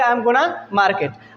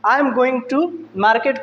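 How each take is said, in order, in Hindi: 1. यह छोटे रूप में 'gonna' हो जाता है। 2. यह पूरा 'going to' के रूप में बोला जाता है।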